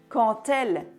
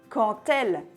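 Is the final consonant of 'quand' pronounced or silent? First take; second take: pronounced; pronounced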